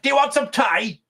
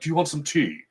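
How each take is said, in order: First: It is spoken in a broad, unrefined British accent. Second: It is spoken in a refined, posh British accent. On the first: "he's like very British" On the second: "not even like the refined British"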